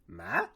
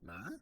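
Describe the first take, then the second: First: The pitch dips down, then rises back up. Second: The pitch rises high at the end. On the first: "you have to go down and then you go back up" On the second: "almost like you're raising your eyebrows when you ask a question"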